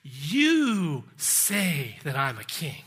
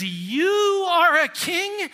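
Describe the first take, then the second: First: YOU held long, then falling low; slow, low reply leaning on YOU; stress on YOU. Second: Incredulous, high, loud mockery with a drawn-out YOU; mocking ridicule. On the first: Acted. Jesus handing the loaded question back to Pilate, stress on YOU. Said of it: "Emphasis on the same pronoun". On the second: Pilate sneering at the beaten prisoner before him, mocking ridicule. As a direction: scoff at the very idea, slow and high. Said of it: "definite tone of ridicule and mockery".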